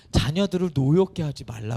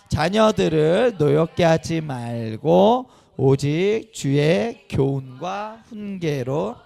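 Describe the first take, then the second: First: Said in the usual way. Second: Loud, very slow, measured recitation; reading scripture aloud. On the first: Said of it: "그랬어요". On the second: Real, not acted. Pastor leading parents in reading a verse, loud slow recitation. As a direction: lead a group reading, drawing out each phrase. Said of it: "한번 읽어보겠습니다. 시작!".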